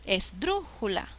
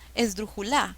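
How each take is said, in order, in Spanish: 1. El acento está en la segunda sílaba. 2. El acento está en la cuarta sílaba. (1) "Suena mejor"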